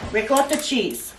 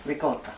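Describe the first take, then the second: First: Said in the usual way. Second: "Ricotta" with an Italian accent, softer, lower and clipped to "ricot"; little Italian accent. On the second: Shown as a demonstration. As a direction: toss off "Ricotta" the Italian way, quietly. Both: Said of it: "I'm trying to throw in a little accent there".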